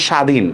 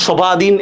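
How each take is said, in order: First: "স্বাধীন" as sha-dhin, no ব sound; silent bo-phola. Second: "স্বাধীন" with the silent ব voiced, as sho-ba-dhin; sounded-out bo-phola. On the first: Teacher shows learners the real form, "স্বাধীন" with silent ব. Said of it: "ব ফলার কিন্তু কোনো উচ্চারণ হচ্ছে না". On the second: Teacher asks learners if we say it so, "স্বাধীন" with ব sounded. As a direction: say "স্বাধীন" wrongly as three beats, sho-ba-dhin. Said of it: "এভাবে বলতেছি নাকি". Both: Shown as a demonstration.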